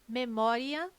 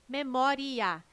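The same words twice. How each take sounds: First: The final 'ia' is said as one syllable. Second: The final 'ia' is said as two syllables. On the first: The word counts as a paroxytone ending in a diphthong. "visão clássica, paroxítona terminada em ditongo crescente" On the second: The word counts as a proparoxytone. "proparoxítona"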